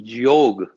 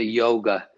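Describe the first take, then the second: First: Yoga as a slow "jyog", no final a; proper pronunciation. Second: Yoga as YOH-guh, two syllables; Western pronunciation. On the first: Interviewee showing the West the right name, yoga pronounced natively. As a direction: draw out yoga as one syllable ending on g. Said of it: "these four words can't be pronounced properly". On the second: Interviewee criticising how the West names it, yoga said Western-style. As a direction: say yoga with a final uh. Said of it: "you will never pronounce it yoga". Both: Shown as a demonstration.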